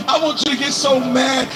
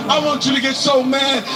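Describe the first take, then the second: No difference in how they are said.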